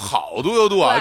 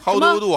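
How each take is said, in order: First: It is said with a Beijing Chinese accent. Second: It is said in standard English pronunciation.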